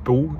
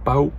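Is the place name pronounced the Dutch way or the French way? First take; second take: French; Dutch. First: The name is said with a French pronunciation. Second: The name is said with a Dutch pronunciation.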